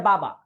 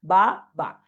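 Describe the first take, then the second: First: Said in the usual way. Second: বা, বা as two separate louder beats; syllable by syllable. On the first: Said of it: "বলা যায় বাবা". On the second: Shown as a demonstration. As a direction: break বা, বা apart with a gap. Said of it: "syllable পাচ্ছ". (বা, বা আলাদা দুই সিলেবলে জোর দিয়ে)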